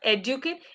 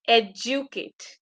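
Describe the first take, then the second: First: The middle consonant is a plain D sound. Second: The middle consonant is a J sound. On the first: The speaker calls it wrong. "It's not educate" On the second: The speaker calls it right. "it's educate. Educate. It's J"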